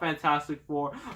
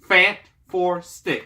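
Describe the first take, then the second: First: Fantastic is said as one ordinary word. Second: Fantastic is split into Fant-Four-Stick. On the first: "I know it's called Fantastic Four" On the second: "That's the proper way of saying it"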